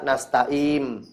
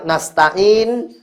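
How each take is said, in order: First: The word ends with an m sound. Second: The word ends with an n sound. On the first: The speaker calls it wrong. "dibaca nasta'im" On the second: The speaker calls it right. "harusnya nasta'in"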